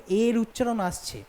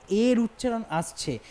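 Both takes have the same delivery.

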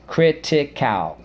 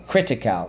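First: Critical. stretched, higher and slower; slow drilled word. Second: Said in the usual way. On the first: Shown as a demonstration. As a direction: spell out Critical. in sound slowly. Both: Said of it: "let's go".

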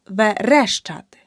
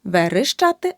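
First: Верещати with a clear е after р; correct vowel demo. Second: Верещати with и after р; the mistake in верещати, и for the second е; wrong vowel demo. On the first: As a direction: say верещати as "ve-RESH-chaty", punching resh. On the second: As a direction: say верещати wrongly as "ve-rysh-chaty". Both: Shown as a demonstration. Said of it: "Не".

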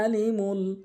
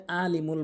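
First: "আলিমুল" drawn out, opening on a throaty Arabic ain; proper ain. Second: "আলিমুল" quickly, opening on a plain glottal hamza; hamza for ain. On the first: Shown as a demonstration. Teacher shows the correct reading, "আলিমুল" with a long throaty ain. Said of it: "আইনের উচ্চারণ করতে হবে". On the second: Retold or imitated. Teacher shows learners the common mistake, "আলিমুল" with plain hamza. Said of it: "আইনের জায়গায় হামজা এনে উচ্চারণ করে".

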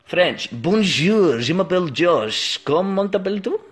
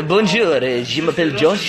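First: French accent. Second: Second go at put-on French; French accent. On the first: Introducing himself to viewers in put-on French. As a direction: attempt French, sounding much like the mock Russian. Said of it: "didn't change there from Russian to French". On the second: Retrying after being teased about the accent, exaggerated French. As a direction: push the French accent harder. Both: Shown as a demonstration.

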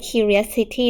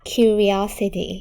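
First: Curiosity misread as "cu-ri-us-i-ty"; curiosity with a weak "us" in place of OS; common mispronunciation. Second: Curiosity slowly as cu-ri-O-si-ty, five syllables; curiosity drawn out, clear "ree-OS" in the middle; five-syllable pronunciation. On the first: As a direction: say curiosity like curious plus -ity, the O lost. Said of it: "คำนี้อย่าอ่านว่า curiosity นะลูก". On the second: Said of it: "อ่านให้เป็น". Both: Shown as a demonstration.

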